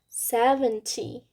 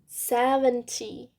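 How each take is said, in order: No difference in how they are said.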